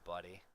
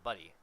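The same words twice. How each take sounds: First: It is said in a sneering, condescending tone. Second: It is said in a warm, friendly tone. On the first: The speaker is talking down to the person. "it's so condescending" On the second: The person is a friend. "the word has a positive meaning"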